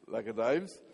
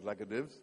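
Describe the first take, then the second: First: The second word rhymes with 'hives'. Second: The second word rhymes with 'gives'. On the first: The speaker calls it right. "I presume it's Laka Dives" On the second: The speaker calls it wrong. "not Laka Divs"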